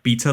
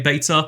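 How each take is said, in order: First: The word is said in a British accent. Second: The word is said in a non-British accent. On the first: The pun on the word does not work. "the British pronunciation of like" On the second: The pun on the word works. "this pun works when you say beta"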